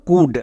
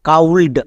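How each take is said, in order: First: The vowel is 'oo' and the L is silent. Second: The vowel is 'ow' and the L is sounded. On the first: The speaker calls it right. "তাহলে এর উচ্চারণ কি দাঁড়ালো কুড।" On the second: The speaker calls it wrong. "কিন্তু এরকম উচ্চারণ করা হয় না।"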